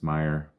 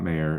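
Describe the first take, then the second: First: The first syllable sounds like 'my'. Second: The first syllable sounds like 'may'. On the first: The speaker calls it right. "it's Meyer. Please say it right" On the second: The speaker calls it wrong. "It's not Mayer"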